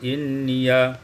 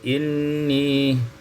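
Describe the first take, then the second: First: The word ends with an added ya syllable. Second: The word ends on a long i.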